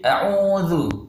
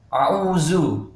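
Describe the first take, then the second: First: The middle consonant sounds like a soft dh. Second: The middle consonant sounds like a z. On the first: The speaker calls it right. "Jadi a'udzu" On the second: The speaker calls it wrong. "dibaca a'uzu. Ini tidak boleh ya"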